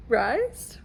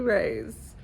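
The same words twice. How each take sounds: First: "Rise?" said as "rice" with a rising question; "Rise?" rhymed with "rice", tentative; unsure name. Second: "Rise." said as "rays"; "Rise." with the vowel of "raise"; mispronounced name. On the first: Guessing the name Rhysand, asking "Rise?" like "rice". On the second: Guessing the name Rhysand, saying "Rise." like "rays". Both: Shown as a demonstration. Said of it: "However you say his name".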